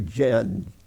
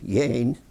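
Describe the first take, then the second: First: The name is said with a plain English pronunciation. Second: The name is said with a German pronunciation. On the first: This is the name's actual pronunciation. "but it's actually Jen" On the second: This is how the family pronounced it in Indiana. "they pronounced it in Indiana Yane, those German people"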